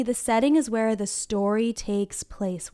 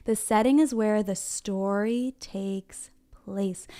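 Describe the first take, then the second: First: Said in the usual way. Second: Drawn-out, measured teaching pace; slow choral repeat. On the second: Shown as a demonstration. Teacher has friends say it along one more time, slowly. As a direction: stretch each word out so children can join in.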